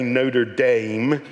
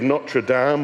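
First: Notre Dame is said in an American accent. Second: Notre Dame is said in a British accent.

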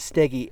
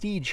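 First: The name is two syllables ending in 'ee'. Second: The name is one syllable with no final vowel. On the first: This is how the name is properly said. The speaker calls it right. "the proper pronunciation is Steggy" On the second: This is how the spelling suggests it is said. The speaker calls it wrong. "it looks like it should be pronounced Stege Hill"

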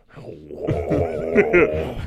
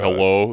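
First: It is said in a deeper, heavier voice. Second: It is said in a happy, light voice.

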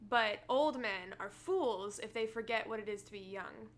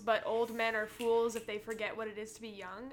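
First: The sentence is spoken slowly. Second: The sentence is spoken quickly. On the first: The speaker calls it right. "I'm going to say it again" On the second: The speaker calls it wrong. "I feel like I was saying it fast"

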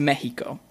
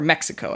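First: It is pronounced the Spanish way. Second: It is pronounced the English way.

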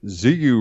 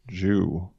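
First: The word begins with a buzzing 'z' sound. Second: The word begins with a soft 'j' sound. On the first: The speaker calls it wrong. "you'll sound like every other noob on YouTube" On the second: The speaker calls it right.

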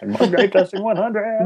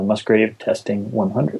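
First: It is said in Animal the Muppet's voice. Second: It is said in his normal voice.

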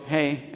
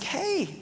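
First: It is a flat, offhand greeting. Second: It is a warm, smiling greeting.

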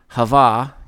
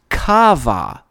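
First: The name begins with a soft h sound. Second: The name begins with a harsh k-like sound. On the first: The speaker calls it wrong. "I'm intentionally mispronouncing it there" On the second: The speaker calls it right. "actually a Hebrew word pronounced Kava, as if it should be spelled with a K"

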